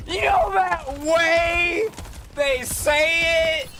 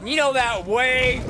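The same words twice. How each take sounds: First: High, drawn-out words; that certain way. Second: Said in the usual way. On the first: Shown as a demonstration. Showing how manipulators say it, high and drawn out. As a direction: stretch it slowly on a raised pitch.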